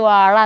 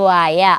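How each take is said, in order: First: The middle consonant is the retroflex zh sound. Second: The middle consonant is a plain y sound. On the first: A child says it the adult way. "ഞാൻ correct വാഴ എന്ന് പറയും" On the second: A small child says it the baby way. "അവൾ വായ"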